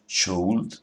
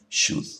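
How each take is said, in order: First: The L sound is pronounced in the word. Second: The L sound is left out of the word. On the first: The speaker calls it wrong. "no decimos should" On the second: The speaker calls it right. "esa L no se pronuncia"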